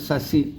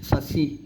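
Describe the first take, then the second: The two takes are said the same way.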